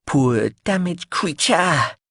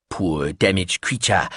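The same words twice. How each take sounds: First: High, slow sing-song; sing-song echo. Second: Slow murmured repetition; slow low murmur. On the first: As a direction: repeat it with a lilting rise. Biscuitine repeating phrase louder. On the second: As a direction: mumble it slowly to yourself. Biscuitine repeating phrase. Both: Acted.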